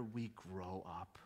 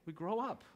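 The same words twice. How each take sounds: First: Much softer, slow and low; hushed punchline. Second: Said in the usual way. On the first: Real, not acted. Preacher landing the point to the church, hushed. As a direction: drop it to a near hush. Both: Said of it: "repeated punchline".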